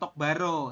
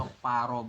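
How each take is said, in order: First: The second word begins with a soft b sound. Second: The second word begins with a tense p sound. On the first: The speaker calls it wrong. "Jadi bukan tok baro seperti itu" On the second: The speaker calls it right. "Tapi dibacanya adalah tok pa"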